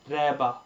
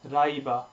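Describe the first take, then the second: First: The first vowel is a plain e sound. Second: The first vowel glides from a to e. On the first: The speaker calls it wrong. "the mistake made here is Reba" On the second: The speaker calls it right. "we stick with Rai, making it clear that we are going from A to E"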